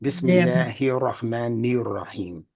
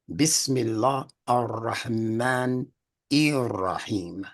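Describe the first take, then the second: First: The words are run together into one stream. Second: The words are kept apart from each other. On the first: The speaker calls it wrong. "when they crunch it together" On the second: The speaker calls it right. "That's not correct because unless you say"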